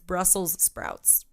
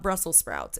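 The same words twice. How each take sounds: First: The first word ends with an s sound. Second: The first word ends without an s sound. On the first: The speaker calls it right. "actually plural" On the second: The speaker calls it wrong. "It's not"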